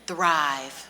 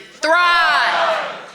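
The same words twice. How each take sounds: First: It is said at normal volume. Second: It is said loudly, like shouting outdoors.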